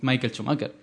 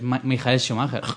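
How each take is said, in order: First: The first name is said the English way. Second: The first name is said the German way. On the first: The speaker calls it wrong. "tampoco es Michael Schumacher" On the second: The speaker calls it right. "Es Mijael Schumacher"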